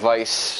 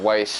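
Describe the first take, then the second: First: It is said with a German-sounding pronunciation. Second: It is said with a plain English pronunciation.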